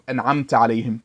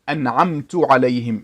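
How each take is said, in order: First: The verb ends with an 'a' vowel. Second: The verb ends with a 'u' vowel. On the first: The reciter says the favour was given by the one addressed. The speaker calls it right. "the path of those you bestowed your mercy upon" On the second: The reciter says the favour was given by himself. The speaker calls it wrong. "This is a mistake that changes the meaning"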